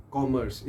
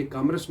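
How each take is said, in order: First: कॉमर्स as kom-ers, short first vowel; correct commerce. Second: कॉमर्स said kam-ras like Urdu spelling; wrong commerce. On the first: Teacher modelling the right कॉमर्स for students. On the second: Teacher mimicking students' kam-ras कॉमर्स. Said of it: "ये कॉमर्स नहीं है". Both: Shown as a demonstration.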